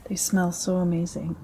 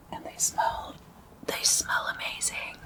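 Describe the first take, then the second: First: Said in the usual way. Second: Soft, voiceless whisper; hushed ASMR whisper. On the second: Real, not acted. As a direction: whisper it with relish. ASMR savouring, drops into whisper.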